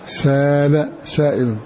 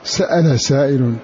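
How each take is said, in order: First: A long a replaces the glottal stop in the first word. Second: A glottal stop follows the s in the first word. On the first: "بألف مكان الهمزة" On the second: "بهمزة مفتوحة بعد السين"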